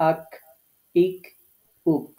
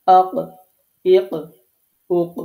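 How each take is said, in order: First: আক, ইক, উক with a plain k, a little forward of qaf; Arabic kaf. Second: Punchy, separated আক, ইক, উক ending in Arabic qaf; qalqalah qaf. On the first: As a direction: say আক, ইক, উক separately, tongue slightly forward against the palate. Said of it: "একটু বাড়িয়ে এই জায়গাটা থেকে". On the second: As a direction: push out আক, ইক, উক as q sounds, each ending in an echoing bounce. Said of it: "আমি ধাক্কা দিয়ে উচ্চারণ করছি". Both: Shown as a demonstration.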